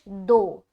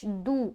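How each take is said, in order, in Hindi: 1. स्वर 'o' की आवाज़ है। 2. स्वर 'oo' की आवाज़ है। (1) "दाल पेश दो उर्दू में पढ़ा जाता है" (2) "और अरबी में क्या पढ़ते हैं?"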